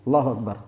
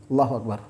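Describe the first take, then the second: Both takes have the same delivery.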